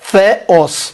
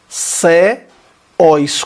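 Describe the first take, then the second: First: It begins with a th sound. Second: It begins with an s sound. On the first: The speaker calls it right. "Se pronuncia como o T H do inglês, com a ponta da língua entre os dedos" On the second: The speaker calls it wrong. "Se fosse ceós, seria ceós, com sigma"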